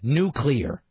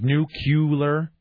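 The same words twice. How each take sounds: First: The word is said as new-clear. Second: The word is said as nucular. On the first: The speaker calls it right. "nuclear is actually spelled NEW-CLEAR" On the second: The speaker calls it wrong. "you're saying it like nuclear. You're saying it wrong"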